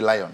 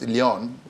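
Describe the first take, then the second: First: The first vowel sounds like 'eye', as in lion. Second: The first vowel sounds like 'ee', as in Leon. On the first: It is a local adaptation of the name. "we have to Nigerianize the pronunciation to say Lion" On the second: It is the name's original form. "but it's Leon"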